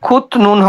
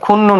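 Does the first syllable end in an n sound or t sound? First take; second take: t sound; n sound. First: The first syllable ends in a t sound. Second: The first syllable ends in an n sound. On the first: The speaker calls it wrong. "খুত নুন হবে না" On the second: The speaker calls it right. "খুন নুন হবে এটা"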